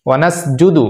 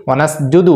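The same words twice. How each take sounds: Both takes have the same delivery.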